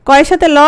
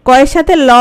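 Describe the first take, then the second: The two takes are said the same way.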